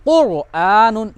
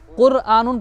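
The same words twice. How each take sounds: First: कुरआनुन slow, with a full, heavy R; correct thick R. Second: कुरआनुन with a thin, trilled R; wrong thin R. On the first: Teacher showing pupils the right reading, thick R. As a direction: round and thicken the R in कुरआनुन, drawing it out. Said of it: "ये पढ़ना सही है". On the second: Teacher showing pupils the wrong reading, thin R. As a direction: roll the R lightly in कुरआनुन, unthickened. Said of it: "पढ़ना गलत है". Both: Shown as a demonstration.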